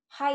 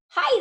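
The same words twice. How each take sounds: First: The voice sounds flat and unsmiling. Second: The voice sounds warm and smiling. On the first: The caller comes across as less friendly. The speaker calls it wrong. "Am I smiling? No" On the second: The caller comes across as friendly. The speaker calls it right. "Am I smiling, you guys? Yes, I am"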